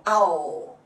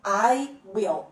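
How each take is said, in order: First: "I'll" as one lengthened, falling syllable; contracted form. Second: "I will" as two separate words; full form. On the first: Teacher showing how I will contracts, "I'll" in one low syllable. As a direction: fold will into a final dark l in "I'll". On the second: Teacher showing the uncontracted form, "I will" in two clear words. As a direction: say "will" fully after "I". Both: Shown as a demonstration. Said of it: "I will vira I'll".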